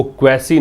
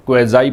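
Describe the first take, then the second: First: क्वेसी with an S sound and a final EE; क्वेसी ending in "see", not "zai"; mispronounced word. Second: क्वेजाई with a Z sound and a final EYE; क्वेजाई ending in "zai", rhyming with "eye"; correct pronunciation. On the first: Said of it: "इसको क्वेसी नहीं पढ़ते हैं". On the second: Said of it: "क्वेजाई पढ़ते हैं". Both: Shown as a demonstration.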